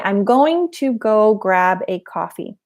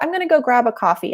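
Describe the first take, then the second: First: The words are separated by pauses between them. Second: The words run together with no pauses. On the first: The speaker calls it wrong. "I didn't say, ... That doesn't sound as natural" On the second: The speaker calls it right. "there's no pause in between those words"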